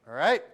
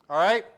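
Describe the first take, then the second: The two takes are said the same way.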